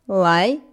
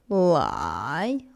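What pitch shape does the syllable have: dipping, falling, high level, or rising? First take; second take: rising; dipping. First: The pitch rises from mid to high. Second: The pitch dips low, then rises.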